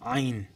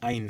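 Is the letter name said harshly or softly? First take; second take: harshly; softly. First: The sound is said hard and harshly. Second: The sound is said softly, without force. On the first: This is the correct Arabic pronunciation. The speaker calls it right. "শক্ত করে বলতে হবে, একটু কঠোর করে বলতে হবে" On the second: This is how Bengali speakers usually say it. The speaker calls it wrong. "বাংলায় বলে আইন"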